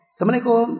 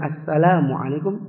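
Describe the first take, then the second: First: The L sound is blurred and hard to hear. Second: The L sound is pronounced clearly and distinctly. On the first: It may hide a wish that the listener dies. "ucapan yang enggak jelas" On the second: It wishes the listener safety and peace. "semoga kau selamat"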